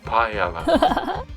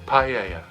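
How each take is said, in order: First: The middle consonant sounds like an l. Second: The middle consonant sounds like a y. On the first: The speaker calls it wrong. "You'll keep saying paella" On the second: The speaker calls it right. "if you can say playa, you can say paella"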